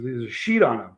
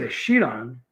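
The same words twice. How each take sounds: First: Low mock-serious statement; retold grave news. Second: SHEET echoed with a rising, questioning tune. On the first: Friend retold breaking bad news in Dallas, mock-grave. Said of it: "He goes". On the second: Retold or imitated. Retelling his reply to the prank, "sheet" questioned in disbelief. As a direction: repeat it as disbelief, lifting on "sheet". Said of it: "I said".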